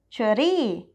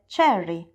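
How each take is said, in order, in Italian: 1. Viene pronunciata con una pronuncia thailandese. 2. Viene pronunciata con una pronuncia inglese. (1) "per dirla con la pronuncia thailandese" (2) "il termine inglese cherry"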